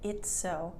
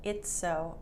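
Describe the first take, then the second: First: The two S sounds blend into one. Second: The two S sounds blend into one.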